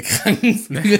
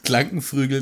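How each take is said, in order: First: Said in the usual way. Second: "Krankenflügel" said "Klankenfrügel"; deliberately garbled "Krankenflügel", l for r; slip of the tongue. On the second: Shown as a demonstration. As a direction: swap r and l in "Krankenflügel". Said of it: "der sich ständig verspricht".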